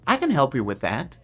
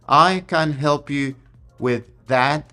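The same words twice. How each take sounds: First: It is said in a warm, confident tone. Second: It is said flatly, like a robot reading.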